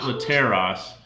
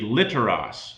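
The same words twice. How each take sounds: First: The stress is on the second syllable. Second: The stress is on the first syllable. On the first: The speaker calls it wrong. "not literos, because that second last syllable is short" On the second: The speaker calls it right. "will be literos"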